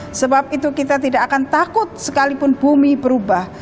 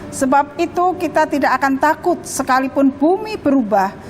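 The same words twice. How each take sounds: No difference in how they are said.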